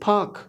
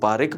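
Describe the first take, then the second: First: It is one syllable with no inserted vowel. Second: An extra vowel is inserted before the final k. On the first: The speaker calls it right. "जो right sound है that is फाक" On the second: The speaker calls it wrong. "कोई इसको पारिक पढ़ता है"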